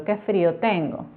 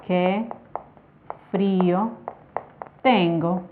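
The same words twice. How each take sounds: First: Said in the usual way. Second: "Qué", "frío", "tengo" each set apart by long pauses; word by word. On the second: Shown as a demonstration. Teacher shows students an exclamation slowly, with pauses. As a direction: spell out "Qué frío tengo" one word at a time, pausing between. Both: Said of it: "Si ustedes se fijan aquí".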